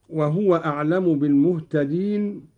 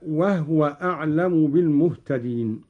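First: Said in the usual way. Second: «وهو» with a silent ha, said as wahwa; «وهو» short, the ha not voweled; reading of Qalun. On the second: Shown as a demonstration. («وهو» بإسكان الهاء: وَهْوَ) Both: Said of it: "قرأ قالون بإسكان الهاء".

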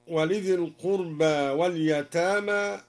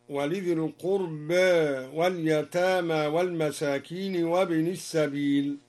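First: Said in the usual way. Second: "القربى" ends between a and e; taqlil. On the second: Shown as a demonstration. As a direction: tilt the final vowel of "القربى" slightly toward e. (تقليل ألف "القربى") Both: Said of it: "قلل القربى هكذا".

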